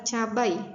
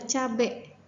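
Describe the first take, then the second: First: The word ends with an 'ai' sound. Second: The word ends with an 'e' sound. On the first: This is the standard, formal form. "sedangkan kata bakunya adalah cabai" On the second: This is the non-standard, informal form. "kata tidak bakunya adalah cabai"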